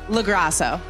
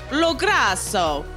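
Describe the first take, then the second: First: The name is said with an American pronunciation. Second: The name is said with an Italian pronunciation. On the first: "But American is" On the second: "if you were going to say it really Italian"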